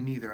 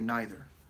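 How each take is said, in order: First: It is said in an American accent. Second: It is said in an English accent.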